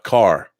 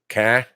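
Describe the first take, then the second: First: The final r is clearly pronounced. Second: The final r is dropped, Boston style. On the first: "not car" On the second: "people from Boston say ca"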